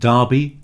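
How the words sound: The first vowel rhymes with Barbie, British style. The speaker calls it right. "pronounced derby to rhyme with Barbie"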